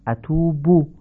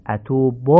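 First: "اتوب" as atubu, higher, ending in pure u; correct Arabic damma. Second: "اتوب" as atubo, final vowel opened to o; non-standard damma. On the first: Teacher corrects the ending for learners, correct Arabic damma. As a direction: end "اتوب" on a rounded short u. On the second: Teacher shows learners the faulty ending, non-standard damma. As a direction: end "اتوب" on a lax Persian o. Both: Shown as a demonstration. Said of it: "تمام این ضمه ها باید فصیح تلفظ بشن".

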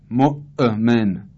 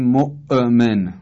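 First: مؤمن drawn out slowly with a jolt on the hamza; slow unnatural qalqala. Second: مؤمن with a forced bounce on the hamza; unnatural qalqala on hamza. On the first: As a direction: stretch مؤمن and bounce the glottal stop. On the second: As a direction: say مؤمن jolting the glottal stop unnaturally. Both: Shown as a demonstration. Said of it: "حالتی است غیر طبیعی".

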